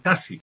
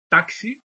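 First: The x is said as a plain s. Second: The x is said as ks. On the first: "la articulación de la X como S" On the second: "en vez de decir taxi, KS"

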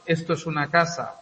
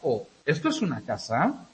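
First: The voice falls at the end, a statement. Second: The voice rises at the end, a question.

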